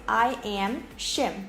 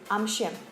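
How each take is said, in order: First: The two words are said separately and fully. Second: The words are squeezed together into one syllable. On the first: The speaker calls it wrong. "I don't say I am Shim" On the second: The speaker calls it right. "I say I'm Shim"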